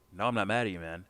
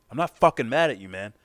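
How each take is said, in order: First: Casual, mildly insistent denial. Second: Loud, high exasperated snap; acted blow-up, denying the anger; mad outburst. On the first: Acted. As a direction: play down being mad. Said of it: "You're not mad at me". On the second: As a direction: finally lose it, louder and higher. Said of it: "He's mad".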